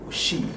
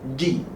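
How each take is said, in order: First: The consonant is a soft hissing sound. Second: The consonant is a full stop without airflow. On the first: The speaker calls it wrong. "We shouldn't say chi, she" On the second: The speaker calls it right. "we should not allow the air to run"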